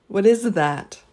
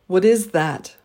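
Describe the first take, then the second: No difference in how they are said.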